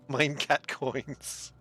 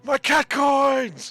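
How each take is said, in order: First: It is said with a German accent. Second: It is said in a plain, unaccented voice.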